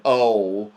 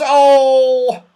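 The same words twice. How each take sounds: First: Said in the usual way. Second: Long, high, loud "oh"; shrieked wail. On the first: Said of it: "No wonder he said". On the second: A narrator's reading. Saucepan Man realises his land is gone, shrieking. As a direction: shriek one stretched cry of horror. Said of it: "shrieked the saucepan man".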